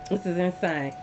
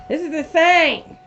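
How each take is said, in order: First: Hushed disbelief. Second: Higher, slower and louder, stretching insane; louder disbelief. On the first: Repeating the phrase in disbelief. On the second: Reader reacting to the card, louder and stretched out. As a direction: lean on insane with rising disbelief. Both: Real, not acted.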